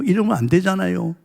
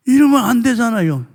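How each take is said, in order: First: Said in the usual way. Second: 이러면 안 되잖아요 repeated higher and louder with 이러면 punched; emphatic outcry. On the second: Shown as a demonstration. Preacher repeats the line to the congregation as a loud higher outcry. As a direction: cry out 이러면 as a protest.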